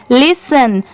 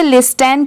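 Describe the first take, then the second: First: लिसन with a silent t, said as lis-un; लिसन, the correct silent-t version. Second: लिस्टन, the mistaken spoken-t version; wrong t sounded. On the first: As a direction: drop the t and say लिसन. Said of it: "टी की sound ट की नहीं है". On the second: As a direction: say लिस्टन with a clear t in the middle. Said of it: "इसे लिस्टन क्यों नहीं पढ़ेंगे". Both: Shown as a demonstration.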